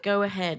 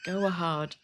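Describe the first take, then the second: First: The second word sounds like 'ahead'. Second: The second word sounds like 'a hard'. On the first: It is the intended version of the phrase. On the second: It is the slipped version of the phrase.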